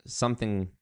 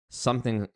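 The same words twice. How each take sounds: The two takes are said the same way.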